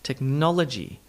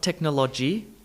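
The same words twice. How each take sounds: First: The unstressed vowels are reduced to schwa. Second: The unstressed vowels keep their full sounds. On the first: The speaker calls it right. "add in the all-important schwa sound" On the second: The speaker calls it wrong. "not technology"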